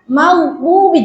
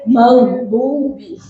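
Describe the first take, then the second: First: The phrase is pronounced light and thin. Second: The phrase is pronounced heavy and thick. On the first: The speaker calls it right. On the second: The speaker calls it wrong.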